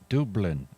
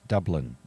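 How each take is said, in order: First: It is said in a local Dublin accent. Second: It is said in a plain non-local accent.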